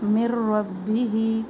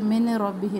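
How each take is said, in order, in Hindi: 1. नून दोहरे र की आवाज़ में मिल जाता है। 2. र से पहले एक साफ़ नून की आवाज़ आती है। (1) "मीम की ज़ेर को रा तशदीद से मिलाना है" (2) "मिन रब्बी ही नहीं पढ़ना"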